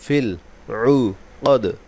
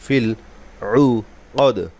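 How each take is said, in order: No difference in how they are said.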